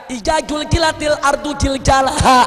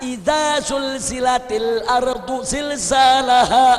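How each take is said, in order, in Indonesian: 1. Bunyi z diganti dengan bunyi seperti j. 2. Bunyi z dibaca sebagai z yang jelas. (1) "apa dia baca" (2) "Waktu dia baca"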